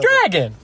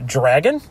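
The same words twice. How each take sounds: First: It is said in an imitated Donkey voice. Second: It is said in the speaker's normal voice.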